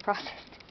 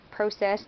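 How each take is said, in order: First: Processed said the American way, PRAH-cessed with an open ah; processed opening on an open ah as in father, PRAH-cessed; American pronunciation. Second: Processed said the British way, PROH-cessed with a long o; processed opening on a long o as in go, PROH-cessed; British pronunciation. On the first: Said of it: "instead of processed". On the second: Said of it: "say processed instead of". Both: Shown as a demonstration.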